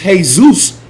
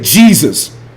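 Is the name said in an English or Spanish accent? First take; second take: Spanish; English. First: The name is said with a Spanish pronunciation. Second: The name is said with an English pronunciation. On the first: "the way the Mexicans pronounce it" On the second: "we say Jesus"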